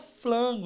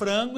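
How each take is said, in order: First: The second consonant is an l sound. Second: The second consonant is an r sound. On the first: A foreigner approximates a sound missing from their language. The speaker calls it wrong. "ele fala flango" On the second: This is the form being taught. The speaker calls it right. "por mais que você ensine o cara a falar frango"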